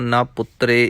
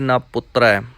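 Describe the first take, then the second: First: The word ends in an 'e' vowel. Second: The word ends in an 'ai' vowel. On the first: The speaker calls it wrong. "ਇਸ ਤਰ੍ਹਾਂ ਵੀ ਨਹੀਂ" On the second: The speaker calls it right. "ਦੁਲਾਵਾਂ ਦੇ ਨਾਲ ਹੀ ਉਚਾਰਨ ਕਰਨਾ ਹੈ"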